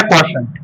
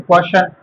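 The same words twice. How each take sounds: First: "क्वोशंट" said as kwa-shant, final T sounded; full pronunciation. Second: "क्वेश्चन" said as kwa-shan, no final T; variant pronunciation. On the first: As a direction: end क्वोशंट on a clear NT. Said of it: "क्वोशंट भी पढ़ते हैं". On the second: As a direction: end क्वेश्चन on N, kwashan. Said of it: "या क्वेश्चन भी पढ़ लेते हैं". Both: Shown as a demonstration.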